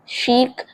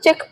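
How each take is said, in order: First: It starts with an 'sh' sound and long vowel. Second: It starts with a 'ch' sound and short vowel. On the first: The speaker calls it right. "आपको बोलना है शीक" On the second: The speaker calls it wrong. "वैसे हम इसको चिक पढ़ेंगे"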